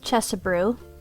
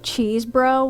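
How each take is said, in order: First: The first syllable sounds like 'chess'. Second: The first syllable sounds like 'cheese'. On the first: The speaker calls it right. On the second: The speaker calls it wrong.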